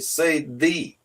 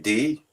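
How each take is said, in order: First: The word begins with a soft th sound. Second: The word begins with a hard d sound. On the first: The speaker calls it right. "he say" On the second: The speaker calls it wrong. "and I say D"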